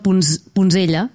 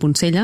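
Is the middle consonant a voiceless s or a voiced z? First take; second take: voiced z; voiceless s. First: The middle consonant is a voiced z sound. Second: The middle consonant is a voiceless s sound. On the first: The speaker calls it wrong. "que és com ho diu tothom" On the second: The speaker calls it right. "s'hauria de dir així, perquè s'escriu amb C"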